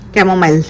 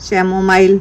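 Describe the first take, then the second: First: The word begins with a k sound. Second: The word begins with a ch sound. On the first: The speaker calls it right. "সির জায়গায় কে উচ্চারণ হবে" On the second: The speaker calls it wrong. "আমি এটা উচ্চারণ করতে পারতেছি না"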